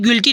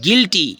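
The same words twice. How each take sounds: First: The u is sounded after the g. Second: The u is silent after the g. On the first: The speaker calls it wrong. "नहीं गिल्टी नहीं" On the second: The speaker calls it right. "यू हो जाएगा silent"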